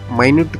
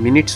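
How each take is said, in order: First: The first vowel sounds like 'eye', as in 'my'. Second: The first vowel sounds like 'ih', as in 'min'. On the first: It means something very small. "इसी शब्द का उच्चार माइन्यूट कर दे" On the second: It refers to a unit of time. "M I N U T S का उच्चार मिनट्स होता है"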